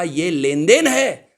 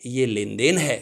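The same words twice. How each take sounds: First: ये लेन देन है said slowly and louder, देन falling hard; slow stressed line. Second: Said in the usual way. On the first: Shown as a demonstration. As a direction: lean into ये लेन देन है, spell it out for the class. (धीमे और ज़ोर से, देन पर ज़ोर) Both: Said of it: "teacher repeats key phrase".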